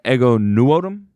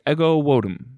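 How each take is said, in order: First: The surname starts with an audible N sound. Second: The surname starts with a W sound, no N. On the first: "I've been saying Ego Nuotum" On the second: "apparently it's Ego Wodum"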